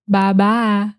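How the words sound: It is said in a slow southern drawl. "they would say bye bye. Very southern"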